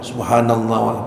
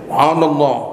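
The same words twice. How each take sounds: First: It is said softly and quietly. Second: It is said loudly and forcefully. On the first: It avoids disturbing others. The speaker calls it right. "pelan-pelan aja" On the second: It disturbs the congregation. The speaker calls it wrong. "Yang kenceng-kenceng bacanya"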